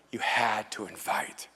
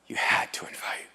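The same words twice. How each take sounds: First: Unvoiced whisper, slow; whispered refrain, every word stretched; whispered repeat. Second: Unvoiced whisper, trailing away; fading whisper. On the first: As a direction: breathe the words as an echo. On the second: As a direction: let it die to a breath. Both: Shown as a demonstration.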